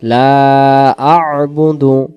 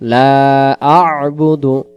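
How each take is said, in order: No difference in how they are said.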